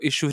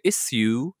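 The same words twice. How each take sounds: First: It is said in a neutral accent. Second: It is said in an exaggerated Australian accent. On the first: "místo issue" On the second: "říkají issue, což se mi hodně líbí"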